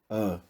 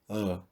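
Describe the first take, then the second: First: The vowel is closed, said further back. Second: The vowel is closed, said further back.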